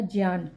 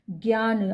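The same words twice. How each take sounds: First: ज्ञान as jyaan, ज joined to य; correct consonant. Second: ज्ञान as gyaan, starting with ग; wrong consonant. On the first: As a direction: say ज्ञान with a j-y onset. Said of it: "ज और य मिला होता है". (ज्ञान को 'ज्य' से बोलें) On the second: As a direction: say ज्ञान with a g-y onset. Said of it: "आधा ग नहीं होता". (ज्ञान को 'ग्य' से बोलें) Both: Shown as a demonstration.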